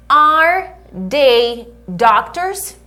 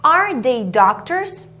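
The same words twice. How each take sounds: First: Are they doctors? said slowly, pitch rising at the end; rising question tune. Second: Are they doctors? said slowly with a gentle rise at the end; rising question tune. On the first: Teacher showing the question intonation. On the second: Teacher repeating the question intonation for learners. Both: Shown as a demonstration. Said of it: "Olha a entonação".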